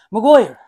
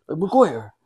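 First: Put-on Maguire said loud in an Irish accent. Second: Put-on Irish accent. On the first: Asked to say a footballer's name, Irish accent. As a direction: give Maguire the Irish lilt. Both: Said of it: "say Maguire".

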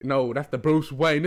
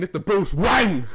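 First: Light Asian accent impression; slow mock Asian accent. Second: Higher, louder Asian accent impression; slow, emphatic mock Asian accent. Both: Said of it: "he speaks in an Asian accent".

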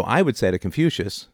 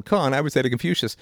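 First: Said in the usual way. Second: "con" set apart and stressed, then "Confucius" said higher; stress on first syllable. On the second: Shown as a demonstration. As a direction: punch the "con" that begins "Confucius". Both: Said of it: "with an emphasis on the first syllable".

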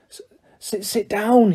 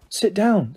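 First: Stammering, tearful elf wail. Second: Soft, polite invitation. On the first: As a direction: wail SIT DOWN, higher and broken up. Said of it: "he wailed". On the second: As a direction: gently offer a seat with SIT DOWN. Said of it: "said Harry politely". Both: A narrator's reading.

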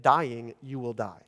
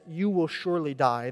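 First: Weight on "dying" and again on "die"; slow, grave repeat of "dying" and "die"; doubled verb emphasis. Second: Said in the usual way. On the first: Shown as a demonstration. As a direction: lean on "dying", then land "you will die" falling. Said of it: "The verb to die is repeated twice for emphasis". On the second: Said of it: "the phrase in Hebrew is actually".

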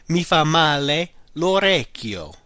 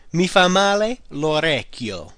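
First: Slow, careful model phrase. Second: Slow, deliberate repeat. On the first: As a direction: lay it out for learners. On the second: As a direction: repeat it slowly for learners. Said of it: "The ear does me bad". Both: Shown as a demonstration.

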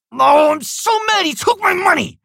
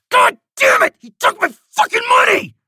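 First: High, loud whiny shout; weak anger. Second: High, loud furious shout; real anger. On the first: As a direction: shout it, but without real anger. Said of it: "Which one sounds more believable?". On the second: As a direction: explode with real fury. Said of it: "it actually sounds like there's anger". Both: Shown as a demonstration.

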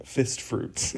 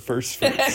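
First: Fist fruits said with no r, fist not first; mispronounced word. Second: Said in the usual way. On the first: Retold or imitated. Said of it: "he kept saying fist fruits instead of first fruits". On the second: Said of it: "instead of first fruits".

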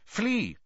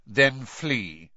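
First: The word Flee. lifted high and then dropped; repeated flee, pitched high. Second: A short, cold dismissal; curt. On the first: Snape repeating his order to Karkaroff, pitched high. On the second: Snape brushing off a worried Karkaroff, curt. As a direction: cut him off curtly. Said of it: "said Snape's voice curtly". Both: A narrator's reading.

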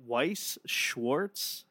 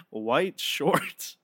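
First: Said in the usual way. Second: "White Schwartz" with a hard t ending White; joking mispronunciation. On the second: Retold or imitated. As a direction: say "White Schwartz" like English white, playfully. Echoes co-host's wrong name jokingly.

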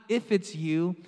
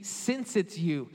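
First: "if" leaned on, ending on a rise; stress on IF. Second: "since" leaned on slowly, then falling; slow, settled fall after stressing "since". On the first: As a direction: hold up "if" as the rejected wording. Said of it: "better rendering of this Greek here is not". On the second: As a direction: offer "since" as the correction, deliberately. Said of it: "it should be". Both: Shown as a demonstration.

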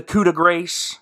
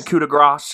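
First: "coup de grace" said with grace rhyming with "race". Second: "coup de grace" with grace said "grahss"; coup de grace corrected. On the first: Narrator stumbles on a French phrase, "coup de grace" ending like "grays". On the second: Narrator corrects himself, "coup de grace" with a French "grahss". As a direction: say "coup de grace" ending in a long "ah" sound. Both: Real, not acted. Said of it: "excuse me".

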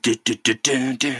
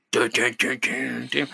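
First: Chanted dun-dun theme, mock serious; sung, Law and Order sting. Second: A hint of Randy Marsh chanting the sting, fading softer; Randy Marsh style. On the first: Teller mimics the Law and Order sound, chanted sting. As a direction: hum the TV courtroom sting. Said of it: "like an episode of Law and Order". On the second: Teller redoes the sting like Randy Marsh, light cartoon chant. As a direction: redo the dun-dun as a cartoon dad. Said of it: "It sounds like Randy Marsh".

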